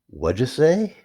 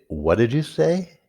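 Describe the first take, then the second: First: It is said very fast with words run together. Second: It is said somewhat faster than normal. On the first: "A little bit faster than that" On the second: "a little bit faster"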